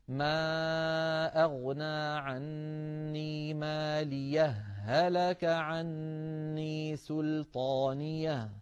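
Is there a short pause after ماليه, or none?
no pause. The two words run together without a pause.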